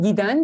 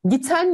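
First: The middle consonant is a soft D sound. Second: The middle consonant is a hard T sound. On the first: The speaker calls it right. "T sert sesini ben neye dönüştürdüm? Yumuşağı olan D'ye çevirdim" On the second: The speaker calls it wrong. "T sert sesiyle bitiyor"

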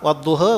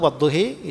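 First: The final vowel is slightly raised toward e. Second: The final vowel is clearly raised toward e.

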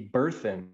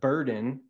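First: The middle consonant is a th sound. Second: The middle consonant is a d sound. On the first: "it would be burthen" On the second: "instead of burden"

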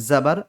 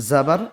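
Both takes have the same delivery.

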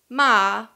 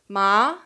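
First: Ma is said with the tone meaning scold. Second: Ma is said with the tone meaning numb. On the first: The word means scold. "would mean scold" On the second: The word means numb. "it would mean numb"

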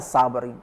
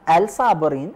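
First: The 'l' blends into a doubled 's'. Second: The 'l' of the article is pronounced. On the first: This is how it is actually pronounced. The speaker calls it right. "ولفظها الصابرين" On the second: This is how it is written. The speaker calls it wrong. "لا الصابرين"

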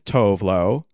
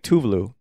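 First: The name has an Americanized pronunciation. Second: The name has its original pronunciation. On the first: The speaker calls it wrong. "The like Americanized version is Tove Lo" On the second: The speaker calls it right. "But like she's saying Tuvalu"

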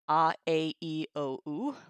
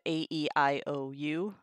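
First: The vowels are said with Latin vowel sounds. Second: The vowels are said as English letter names. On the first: The speaker calls it right. "classical pronunciation as it is taught" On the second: The speaker calls it wrong. "instead of A-E-I-O-U"

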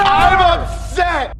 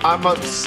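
First: It is said loudly. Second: It is said quietly.

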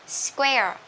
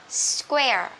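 The two takes are said the same way.

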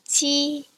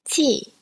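First: It is said with the first tone. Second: It is said with the fourth tone. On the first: "here are some examples of some words with this first tone" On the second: "here is the fourth tone"

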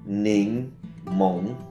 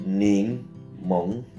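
Both takes have the same delivery.

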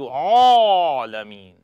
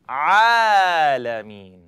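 First: The sound is made with rounded lips. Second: The sound is lifted with an open mouth. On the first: The speaker calls it wrong. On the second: The speaker calls it right.

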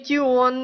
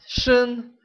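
First: It begins with a t sound. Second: It begins with an sh sound. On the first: The speaker calls it wrong. "Не Тион" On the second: The speaker calls it right. "Они читаются шин"

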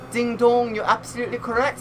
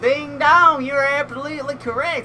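First: It is said in a put-on British accent. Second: It is said in a rural American country accent. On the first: "I'm going to give like a British accent" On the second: "I just sound like a country folk now"

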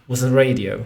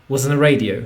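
Both takes have the same delivery.

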